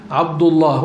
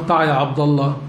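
First: عبد الله with a full, clear final h; correct pronunciation. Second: عبد الله said as ʕabd alla, final h dropped; wrong pronunciation. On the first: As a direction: say عبد الله ending on a clear h, ʕabd ullah. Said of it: "فتعلموا من صغرهم يقولون". (نطق عبد الله بهاء واضحة في آخرها) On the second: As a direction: drop the h at the end of عبد الله. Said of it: "لا يقولون لشخص يسمى عبد الله". (عبد الله بدون هاء في آخرها) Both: Shown as a demonstration.

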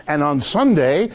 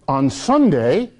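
First: Said in the usual way. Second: Slow, stressed on Sunday, rising at the end; Sunday dwelt on with slow weight; emphatic slow Sunday. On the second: Shown as a demonstration. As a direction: lean on Sunday and draw it out. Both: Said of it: "very important".

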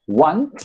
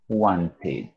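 First: Said in the usual way. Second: "wanted" slow, softer and lower, ending in a full "-id" syllable; ED como ID. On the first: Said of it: "en presente y en pasado". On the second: Shown as a demonstration. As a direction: say "wanted" with a relaxed extra "id". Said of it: "como si fuera una I D". ("wanted" con ED suave, como "id")

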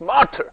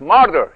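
First: "مارتر" higher, with a clearly sounded T; British English "مارتر", the T fully pronounced; British pronunciation. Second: "ماردر" with the T softened to a D-like tap; American "ماردر", T left unstressed and tapped; American pronunciation. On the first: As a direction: say "مارتر" British-style, crisp T. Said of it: "بریتیش انگلیش". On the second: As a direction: say "ماردر" American-style, no crisp T. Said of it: "تلفظ آمریکایش ماردر". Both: Shown as a demonstration.

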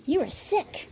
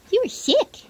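First: Higher voice telling the dog; high pet talk. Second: Higher and louder pet voice; louder high pet talk. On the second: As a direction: say it again, squealing to the dog. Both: Real, not acted.

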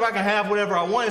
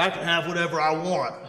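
First: Said in the usual way. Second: Lightly voiced macho man, a little lower. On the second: Mock macho men out there claiming entitlement, lightly voiced macho man. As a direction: give a slight macho swagger. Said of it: "no macho men out there".

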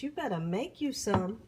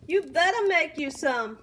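First: Said in the usual way. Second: Higher and louder, insisting; urging viewers, louder the second time; louder insistence. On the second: Real, not acted. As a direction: push it on the repeat. Repeated louder for emphasis.

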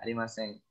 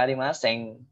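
First: "arimasen" ending in a plain n; final N sound. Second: "arimasen" ending in an ng sound; wrong NG ending. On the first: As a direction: end "arimasen" on n, tongue forward, no g. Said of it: "Pakai N aja". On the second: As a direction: close "arimasen" on ng, as in sing. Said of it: "nggak usah pakai G". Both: Shown as a demonstration.

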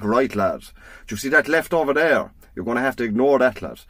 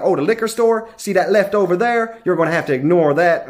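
First: Lightly voiced old Irishman, understated; a hint of an old country man giving directions. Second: Lightly voiced helpful sheriff, starting higher; sheriff giving directions. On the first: Irish sat nav directing a driver, lightly voiced old man. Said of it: "an old man's voice came over". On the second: Sheriff directing tourists to the liquor store, lightly voiced. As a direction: start up high, then settle into local directions. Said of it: "the reason I knew he was Irish".

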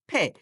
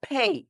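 First: ফে with a short pure vowel; old mispronunciation. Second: ফে drawn out with a ই glide at the end; correct pronunciation. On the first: Teacher showing how we used to say pay, glideless ফে. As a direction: say ফে with no glide at the end. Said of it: "আমরা বলতাম". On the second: Teacher modelling correct pay, ফে gliding into ই. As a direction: glide the vowel of ফে into short ই. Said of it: "শুদ্ধ উচ্চারণে আমরা বলবো". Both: Shown as a demonstration.

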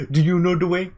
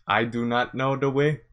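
First: Higher, louder mock Ugandan accent; mild mock Ugandan accent; Ugandan Knuckles voice. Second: Said in the usual way. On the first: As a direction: quote the meme line with a grin. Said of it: "Are you pro". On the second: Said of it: "not pro on".

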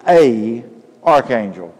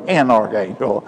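First: "a archangel" said with "a" before the vowel; wrong article. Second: "an archangel" with "an" joined to the vowel; correct article. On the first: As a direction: say "a archangel", plain "a" not "an". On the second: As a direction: say "an archangel", the proper English form. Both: Shown as a demonstration. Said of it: "if we want to use the correct English".

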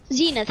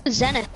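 First: "Zenith" with a long ee, as in "zee"; long-e pronunciation. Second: "Zenith" with a short e, as in "zen"; short-e pronunciation. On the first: Gamer offering another reading, "Zenith" said ZEE-nith. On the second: Gamer unsure of a name, "Zenith" said ZEN-ith. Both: Shown as a demonstration. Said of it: "however you pronounce it".

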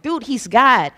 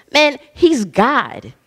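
First: Said in the usual way. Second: Man, he's God stretched out slowly, each word weighed; emphatic, slow. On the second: Acted. Preacher pressing the point on the church, slow and emphatic. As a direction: drag "he's God" out to make it land. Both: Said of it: "I don't know how else to say it".

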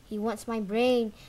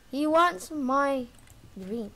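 First: Said in the usual way. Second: Slow, louder, leaning hard on "wants"; stress on wants. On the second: Real, not acted. Gamer telling viewers granny wants him, stressing "wants". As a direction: drag out "He wants my" and punch "wants". Repeats the line twice.

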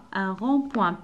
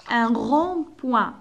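First: Said in the usual way. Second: Un rond-point drawn out; slow model word. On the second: Shown as a demonstration. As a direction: stretch Un rond-point for pupils. (Un rond-point ببطء) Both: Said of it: "P avec wa".

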